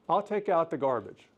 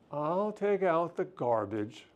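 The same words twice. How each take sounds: First: It sounds plain and willing. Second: It sounds grudging and put-upon. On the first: The chore will simply be done. "I'm going to take out the garbage, right?" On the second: The chore is done unwillingly, blaming the other. "I'm playing the martyr"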